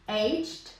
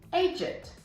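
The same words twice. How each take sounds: First: It is said in an American accent, one syllable. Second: It is said in a British accent, ending in 'id'.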